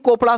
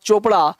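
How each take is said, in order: First: The name begins with a k sound. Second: The name begins with a ch sound. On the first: The speaker calls it wrong. "उल्टा पुल्टा concept नहीं पढ़ना है कि को- चोपड़ा को कोपड़ा" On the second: The speaker calls it right. "उस master जी का नाम था चोपड़ा"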